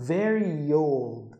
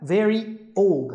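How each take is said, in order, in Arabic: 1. يوجد صوت 'y' يربط الكلمتين. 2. لا يوجد صوت 'y' يربط الكلمتين. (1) "كأن في يه كده" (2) "مش هتقول بقى very old"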